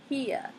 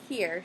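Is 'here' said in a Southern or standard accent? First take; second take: Southern; standard. First: It is said in a Southern accent. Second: It is said in a standard accent.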